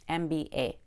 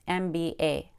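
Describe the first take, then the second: The two takes are said the same way.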